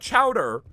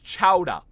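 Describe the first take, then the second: First: The word ends in an 'er' sound. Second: The word ends in an 'ah' sound. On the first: The speaker calls it wrong. "It's not Chowder" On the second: The speaker calls it right. "It ends in an A. You have to pronounce it Chowda"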